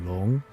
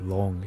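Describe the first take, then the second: First: The pitch rises on the word. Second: The pitch stays flat on the word. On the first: The speaker calls it right. "your tone kind of goes up" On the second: The speaker calls it wrong. "you don't just say Long"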